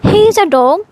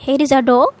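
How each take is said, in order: First: Announcing. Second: Said in the usual way. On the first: Shown as a demonstration.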